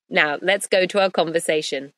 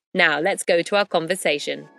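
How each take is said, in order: Both takes have the same delivery.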